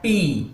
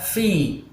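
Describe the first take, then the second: First: The syllable begins with a p sound. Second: The syllable begins with an f sound. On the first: The speaker calls it wrong. "bukan pi" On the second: The speaker calls it right. "yang benar fi"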